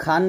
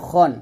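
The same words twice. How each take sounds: First: খান with open "aa"; wrong pronunciation. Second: খন with rounded, throaty "kho"; correct pronunciation. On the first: Teacher rejects the mistake, খান with open vowel. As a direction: spread the vowel of খান wide. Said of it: "এটা কিন্তু খান না". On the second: Teacher confirms the proper word, খন with rounded vowel. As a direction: keep খন rounded, never open. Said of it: "এটা হচ্ছে খন". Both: Shown as a demonstration.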